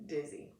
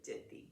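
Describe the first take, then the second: First: Said in the usual way. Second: Dithy said with a lisp, th for the z; gap-toothed lisp on dithy; lisped dizzy. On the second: Retold or imitated. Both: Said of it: "He meant dizzy".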